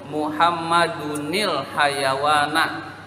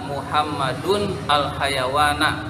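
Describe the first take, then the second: First: The words are joined with a linking il sound. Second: The words are separate, with the al sounded. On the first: "Kalau mau disambung" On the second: "Alnya kebaca"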